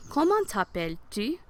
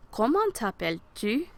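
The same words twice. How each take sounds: First: Comment t'appelles-tu with silent T in comment; model pronunciation. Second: Comment t'appelles-tu, rising at the end; model pronunciation. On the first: Teacher asking the question for students to repeat. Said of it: "Répétez". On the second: Teacher repeating the question for students to echo. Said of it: "Répétez. Repeat". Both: Shown as a demonstration.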